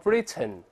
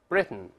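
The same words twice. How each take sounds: First: The final syllable has a full vowel sound. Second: The t is released through the nose. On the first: "我没有读成Britain" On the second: "而读成Britain"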